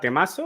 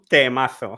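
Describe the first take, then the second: First: It is said with a Latin American Spanish accent. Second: It is said with a Spain Spanish accent. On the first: "in a Latin American accent" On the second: "with a Spanish accent"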